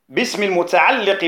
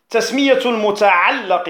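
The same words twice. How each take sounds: First: المتعلق with an "i" after the doubled lam; kasra on المتعلق. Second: المتعلق with an "a" after the doubled lam; fatha on المتعلق. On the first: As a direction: say المتعلق as al-muta'alliq. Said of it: "بالكسر". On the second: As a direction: say المتعلق as al-muta'allaq. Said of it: "بالفتح". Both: Shown as a demonstration.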